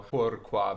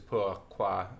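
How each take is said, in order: First: The R is a quick tongue-tip flip. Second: The R buzzes at the back of the tongue. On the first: This is how classical singers do it. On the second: This is how it is sung in current music.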